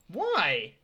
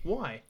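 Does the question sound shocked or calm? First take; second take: shocked; calm. First: It is asked in a shocked tone. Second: It is asked in a calm tone.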